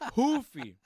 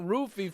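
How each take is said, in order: First: The name begins with an H sound. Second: The name begins with an R sound. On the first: The speaker calls it right. "It's hoofy" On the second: The speaker calls it wrong. "It's not roofie"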